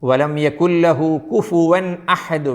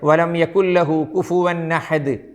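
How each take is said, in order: First: The n is clear and the a starts separately. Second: The n runs straight into the following a. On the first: The speaker calls it right. "വേണം" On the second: The speaker calls it wrong. "പറ്റൂല"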